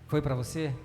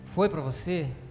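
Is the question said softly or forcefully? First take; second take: softly; forcefully. First: The question is said more softly. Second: The question is said more forcefully.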